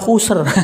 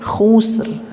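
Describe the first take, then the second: First: The final r sound is strong and exaggerated. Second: The final r sound is light and subtle. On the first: The speaker calls it wrong. "Tapi jangan terlalu khusr" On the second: The speaker calls it right. "tapi khusr. Jadi betul-betul sangat halus ya"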